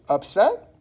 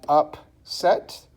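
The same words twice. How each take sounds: First: Said in the usual way. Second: "upset" slowly split as up, set; syllable by syllable. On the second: Shown as a demonstration. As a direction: break "upset" into two separate beats. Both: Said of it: "two syllables".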